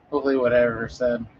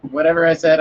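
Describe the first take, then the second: First: Said in the usual way. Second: Louder repeat. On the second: Real, not acted.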